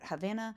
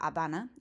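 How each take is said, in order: First: The word begins with an audible H sound. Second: The word begins with a silent H. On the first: This is the English way of saying it. "In English, we pronounce it Havana" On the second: This is the Spanish way of saying it. "silent H, in Spanish, it's La Habana"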